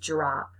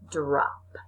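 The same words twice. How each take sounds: First: It starts with a j-like sound, said quickly. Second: It starts with a clear d sound. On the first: The speaker calls it wrong. "we say it quickly, and we it sounds like we're saying drop with a j sound in the beginning" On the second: The speaker calls it right. "but it's actually drop"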